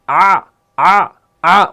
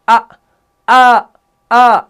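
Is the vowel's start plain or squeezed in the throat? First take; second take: squeezed; plain. First: The vowel starts with a squeezed, tight throat sound. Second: The vowel starts with a plain, straight throat sound. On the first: "आइन की ... स्क्वीजन जो साउंड होता है" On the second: "हमजा की जो आवाज होती है ना वो बिल्कुल स्ट्रेट होती है"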